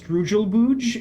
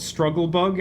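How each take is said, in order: First: The vowels are changed, sounding like strugel-booge. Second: Both words are said in their usual way. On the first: "they pronounced the the move called Struggle Bug as Strugelbooge" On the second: "the move called Struggle Bug"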